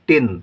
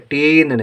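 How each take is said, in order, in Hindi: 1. स्वर छोटा रखा जाता है। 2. स्वर लंबा बोला जाता है। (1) "यहाँ पर छोटी लिखी है तो हम पढ़ेंगे टिन" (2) "टीन नहीं"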